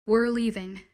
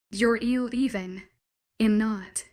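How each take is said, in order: First: Said in the usual way. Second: Slow, every word stressed: "You're leaving." "I'm not."; each word emphasized. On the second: Acted. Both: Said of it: "I emphasized each word clearly".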